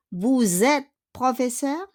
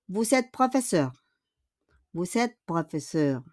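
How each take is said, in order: First: "professeur" rising at the end; question intonation. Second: "professeur" falling to a full stop; affirmative intonation. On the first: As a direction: ask it by lifting the voice on "professeur". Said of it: "With a question mark". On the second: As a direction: state it, voice dropping on "professeur". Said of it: "it's only an affirmative point or period". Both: Shown as a demonstration.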